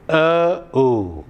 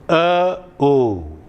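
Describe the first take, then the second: No difference in how they are said.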